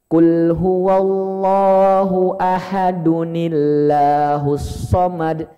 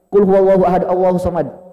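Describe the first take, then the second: First: An added 'un' sound links 'ahad' to 'Allahus'. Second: 'Ahad' runs into 'Allahus' with no added 'n'. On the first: The speaker calls it right. "cara baca yang tepat ... disambung dengan ayat kedua kayak gini" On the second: The speaker calls it wrong. "Jadi bukan gini Pak"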